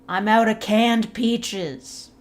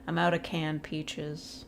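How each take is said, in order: First: The sentence is screamed loudly and dramatically. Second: The sentence is said at a calm, normal volume.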